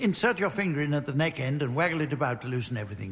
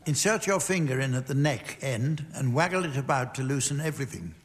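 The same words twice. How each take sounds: First: It is read very quickly. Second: It is read at a normal pace.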